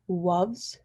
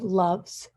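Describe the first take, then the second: First: The word starts with a W sound. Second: The word starts with an L sound. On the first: "with a W" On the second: "the L in loves"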